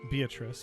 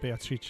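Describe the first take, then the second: First: The name is pronounced the English way. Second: The name is pronounced the Italian way.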